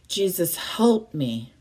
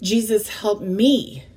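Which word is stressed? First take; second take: help; me. First: The word help is stressed. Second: The word me is stressed. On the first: The focus is on the kind of aid needed. "Then I'm looking at being specific on what I want" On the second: The focus is on the person needing aid. "So who are we looking for as the focus of our prayer?"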